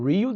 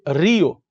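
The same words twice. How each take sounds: First: It is said with an American accent. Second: It is said with a northern Brazilian accent. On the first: "Eles falam Rio de Janeiro" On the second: "para aqueles mais, né, do norte"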